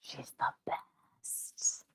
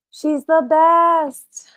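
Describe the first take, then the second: First: Slow soft whisper; whispered adoration. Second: High, louder, slow gush; high gushing praise. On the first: Owner whispering praise over her sleeping cat. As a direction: breathe it out lovingly. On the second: Owner gushing loudly about her cat, high and slow. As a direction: burst out with adoration. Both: Real, not acted.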